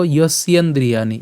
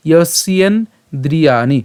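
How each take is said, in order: First: "যস্যেন্দ্রিয়াণি" joined without a gap; "যস্যেন্দ্রিয়াণি" in one connected piece at normal pace; said as one word. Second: "যস্যেন্দ্রিয়াণি" slowly, in separated chunks; "যস্যেন্দ্রিয়াণি" drawn out with gaps between parts; broken into parts. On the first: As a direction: run "যস্যেন্দ্রিয়াণি" together smoothly. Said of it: "একসাথে উচ্চারণ করবো". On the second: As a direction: split "যস্যেন্দ্রিয়াণি" as yos-yen, dri-yaa-ni. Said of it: "যদি আমি এটা ভেঙে দিয়েছি". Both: Shown as a demonstration.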